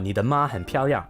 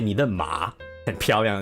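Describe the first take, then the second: First: The syllable ma has a high level tone. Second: The syllable ma has a low dipping tone. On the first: Your mother is very pretty. The speaker calls it right. "if you're trying to compliment someone's mother" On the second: Your horse is very pretty. The speaker calls it wrong. "it's like your horse is very pretty"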